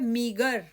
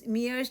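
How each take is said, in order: First: It is said with a g sound. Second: It is said without a g sound. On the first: The speaker calls it right. "यह है मीगर" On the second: The speaker calls it wrong. "यह शब्द pronounce मियर्स नहीं कहलाएगा"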